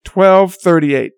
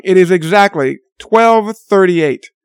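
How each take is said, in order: First: "Twelve thirty-eight" repeated slowly with weight; slow emphatic repeat of "Twelve thirty-eight"; repeated for emphasis. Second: "twelve thirty-eight" said slowly and pointed; pointed slow stress on "twelve thirty-eight"; stressing the time. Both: Real, not acted. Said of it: "I want you to know".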